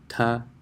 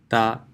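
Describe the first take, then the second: First: The tongue stops behind the teeth for t. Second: The tongue presses against the teeth for t. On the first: "So this would be English T" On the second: "and this is ta"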